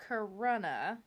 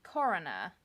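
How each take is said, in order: First: "Corunna" with the stress on the middle, kuh-ROH-nuh, questioning rise; tentative pronunciation. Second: "Corunna" with the stress up front, KOR-uh-nuh; alternative pronunciation. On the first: Podcaster testing a triggering place name, "Corunna" as rising kuh-ROH-nuh. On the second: Podcaster retrying a triggering place name, "Corunna" as KOR-uh-nuh. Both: Shown as a demonstration. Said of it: "none of this sounds nice".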